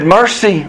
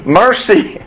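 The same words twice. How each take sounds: First: Said in the usual way. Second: Called-out "Mercy", higher and drawn out with a falling end; a second, higher call of "Mercy" from the pit. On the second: Retold or imitated. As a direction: call "Mercy" as if from far away. A boy calls Mercy's name.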